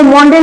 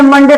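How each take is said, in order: First: मोंडे with a long "oh" in the first syllable; wrong O sound. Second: मंडे with a short "uh" in the first syllable; short A sound. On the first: Teacher showing students how not to read Monday, मोंडे with an "oh". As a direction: say मोंडे as "MOHN-day", the misreading. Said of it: "इसको मोंडे नहीं पढ़ेंगे". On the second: Teacher showing students the correct reading of Monday, मंडे with an "uh". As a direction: say मंडे as "MUN-day". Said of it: "अ का दे रहा है". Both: Shown as a demonstration.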